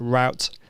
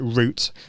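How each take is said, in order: First: The word is said with an American pronunciation. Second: The word is said with a British pronunciation. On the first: "If you're American, you're probably going to call it route" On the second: "I'm British, so I call it route"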